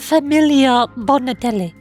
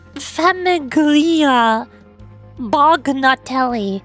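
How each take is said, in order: First: The G sounds are dropped from the name. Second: The G sounds are pronounced in the name. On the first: "I have to leave out several letters" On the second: "her name is spelled"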